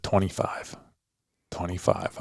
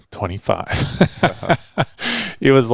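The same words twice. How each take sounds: First: Breathy whispered yardage calls, much softer; retold whisper. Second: Laughing retell. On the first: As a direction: whisper the range to the shooter. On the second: Retold or imitated. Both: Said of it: "I just kept whispering".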